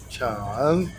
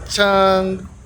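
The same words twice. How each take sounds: First: The pitch dips low and then rises. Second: The pitch stays high and level. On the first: "Those are the four tones" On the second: "Those are the four tones"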